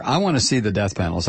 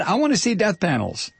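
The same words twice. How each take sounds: First: Said in the usual way. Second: High-pitched, petulant mock demand; mock indignation. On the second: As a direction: insist like a hammed-up tantrum. Demand repeated as mock tantrum.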